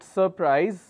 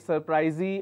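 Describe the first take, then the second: First: The word ends without an added final vowel. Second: The word ends with an added 'ee' vowel. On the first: The speaker calls it right. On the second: The speaker calls it wrong.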